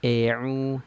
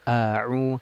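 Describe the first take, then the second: First: The first vowel is opened too little. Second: The first vowel is opened very wide. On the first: "Miring itu kurang bukaan mulut kita" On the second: "kalau terlalu lebar"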